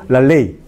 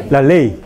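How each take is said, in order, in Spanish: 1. La l se hace con la lengua detrás de los dientes. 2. La l se hace con la lengua detrás de los dientes.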